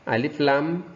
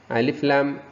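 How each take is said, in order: No difference in how they are said.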